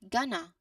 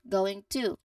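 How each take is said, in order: First: It is said as one short reduced word. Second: It is said as two full separate words. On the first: "the shortest spoken form for this phrase is gonna" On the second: "you fully say both going and to as two separate small words"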